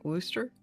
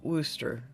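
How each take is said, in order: First: The word is said in an Oklahoma accent. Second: The same.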